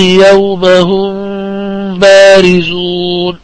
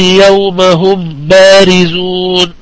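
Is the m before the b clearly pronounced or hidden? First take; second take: hidden; clear. First: The m is hidden and nasalized before b. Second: The m is pronounced clearly before b. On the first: "وهذه مرحلة الإخفاء" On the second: "من غير إخفاء، إنما إظهار"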